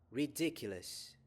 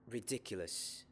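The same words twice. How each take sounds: First: It is said loudly. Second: It is said at normal volume.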